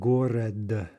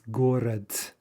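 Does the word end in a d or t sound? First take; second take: d; t. First: The word ends with a voiced d sound. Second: The word ends with a voiceless t sound. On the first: The speaker calls it wrong. "not город" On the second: The speaker calls it right. "As though you had a final t"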